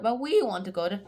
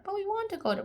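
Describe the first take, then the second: First: Said in the usual way. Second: Put-on squeaky high childish whine; high whiny kid. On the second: Kids begging their parents to visit the house, high whine.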